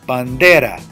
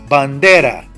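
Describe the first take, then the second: No difference in how they are said.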